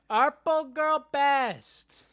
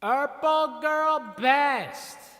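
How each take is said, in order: First: The voice is dry with no added effect. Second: The voice has an echoing reverb effect.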